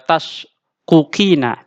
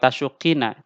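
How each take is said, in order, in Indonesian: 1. Dua bunyi qaf diucapkan secara terpisah. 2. Dua bunyi qaf menyatu menjadi satu bunyi yang dobel. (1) "kita tidak bilang" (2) "kita bilang"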